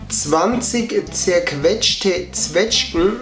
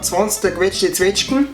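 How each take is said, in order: First: It is spoken in standard German at normal speed. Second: It is spoken in Bavarian dialect and faster.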